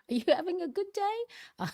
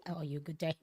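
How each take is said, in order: First: Corrects the slip with a laugh, higher; laughing correction. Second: Said in the usual way. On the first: Shown as a demonstration. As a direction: laugh through the fixed question.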